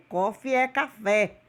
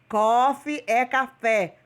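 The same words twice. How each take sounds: First: Said in the usual way. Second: Coffee é café said slowly, word by word, falling at the end; slow teaching repeat. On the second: Shown as a demonstration. Teacher repeating for students, slow and deliberate. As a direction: spell it out slowly for the class.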